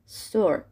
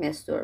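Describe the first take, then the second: First: The word starts directly with the s. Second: An extra vowel comes before the s. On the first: The speaker calls it right. "تلفظ درستش اینجوریه" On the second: The speaker calls it wrong. "تو فارسی میگیم استور"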